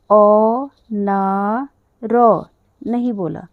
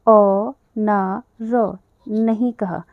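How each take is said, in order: First: अ ना र drawn out slowly and louder; teacher stressing how it was not said; syllables stretched out. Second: Teacher stressing how it was not said; syllables stretched out. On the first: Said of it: "तो मैंने इसको अनार बोला". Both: Shown as a demonstration.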